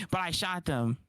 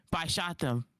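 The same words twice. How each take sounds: The two takes are said the same way.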